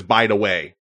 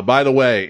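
First: Put-on light Detroit accent on "By the way"; touch of Detroit in the vowels and consonants. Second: Said in the usual way. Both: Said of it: "in my best Detroit accent".

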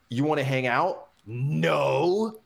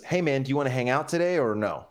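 First: Mocking question, then a drawn-out, higher no; misread as hostile. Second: Light, quick, easygoing ask; casual friendly invite. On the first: Friend misreads the casual text, hostile and mocking. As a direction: exaggerate it into a scornful refusal. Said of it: "the other guy reads it and he goes". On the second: Retold or imitated. Guy texts his friend about hanging out, casual and friendly. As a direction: toss it out as a breezy invitation. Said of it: "he's hearing it one way".

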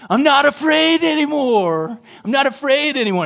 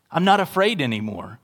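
First: Put-on high, loud, kid-like defiant declaration; hammed-up child bravado, the second line faster; Macaulay Culkin in Home Alone. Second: Said in the usual way. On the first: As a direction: play the boy talking himself out of fear, much higher and louder. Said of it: "Little Macaulay Culkin". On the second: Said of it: "you flip and you say".

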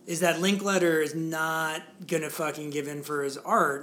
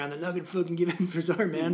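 First: Said in the usual way. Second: Fast, lazy stoner guy. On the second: Shown as a demonstration. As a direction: play it like a stoner dude. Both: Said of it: "I sound like the stoner guy".

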